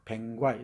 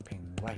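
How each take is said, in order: First: 뱅과이 said with ae and a long final i; 병관 said as 뱅과이, dialect style; Jeolla dialect pronunciation. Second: 뱅과이 whispered, rising; 뱅과이 breathed out without voice; whispered repeat. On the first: Lecturer demonstrating Jeolla speech: 뱅과이 said in dialect. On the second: Lecturer repeating the dialect word: whispered 뱅과이. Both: Shown as a demonstration. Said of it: "이렇게".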